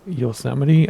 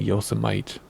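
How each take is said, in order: First: "Yosemite" as yo-SEM-ih-tee; four syllables in "Yosemite", ending "tee"; correct Yosemite. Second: "Yosemite" as YO-suh-mite; mistaken old Yosemite. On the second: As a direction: rhyme the end of "Yosemite" with kite. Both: Shown as a demonstration. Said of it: "I used to call it Yosemite".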